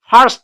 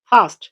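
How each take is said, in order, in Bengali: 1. স্বরধ্বনির পরে "r" ধ্বনিটি উচ্চারণ হয়। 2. স্বরধ্বনির পরে "r" ধ্বনিটি নীরব থাকে।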